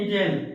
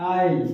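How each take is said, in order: First: The s sound is pronounced in the word. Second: The s sound is silent in the word. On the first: The speaker calls it wrong. "इसे बच्चे पढ़ते हैं इजेल" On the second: The speaker calls it right. "क्या लिखा है आइल"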